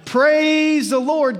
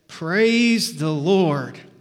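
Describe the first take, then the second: First: It is said much more loudly. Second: It is said at a normal volume.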